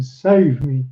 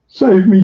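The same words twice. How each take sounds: First: Softer wailing plea. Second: Loud high cry of save me with Save stretched out; wailing plea. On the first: Haberdasher still begging the musketeers, fading wail. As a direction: Save let sink into a tired plea. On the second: Haberdasher begging the musketeers to rescue him, loud wail. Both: A narrator's reading. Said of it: "he wailed".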